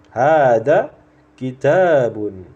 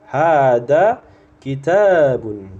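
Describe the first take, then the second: The two takes are said the same way.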